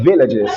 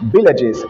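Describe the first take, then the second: First: The word begins with a V sound. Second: The word begins with a B sound. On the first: "and not villages" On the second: "he said villages"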